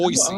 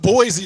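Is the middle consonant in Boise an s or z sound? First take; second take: s; z. First: The middle consonant sounds like an s. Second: The middle consonant sounds like a z. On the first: The speaker calls it right. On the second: The speaker calls it wrong.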